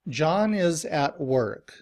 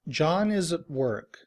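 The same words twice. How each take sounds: First: Every word, including 'at', is said fully and clearly. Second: The word 'at' is reduced to a weak 'ut'. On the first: "Every word is pronounced very clearly" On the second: "in reduced form, uses the schwa"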